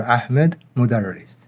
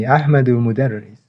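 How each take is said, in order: First: Said in the usual way. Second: Ahmedu said with a clear final u, Ahmed-u; with case ending. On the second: Shown as a demonstration. Teacher shows students the full Arabic form, final u pronounced. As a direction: sound the vowel on the end of Ahmedu. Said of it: "We can either say".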